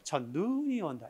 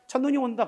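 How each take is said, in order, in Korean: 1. '눈'의 모음은 길게 늘여서 내요. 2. '눈'의 모음은 짧게 내요. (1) "이렇게 하지 않는다는 거지" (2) "라고 할 때 짧게. ... 그래야지"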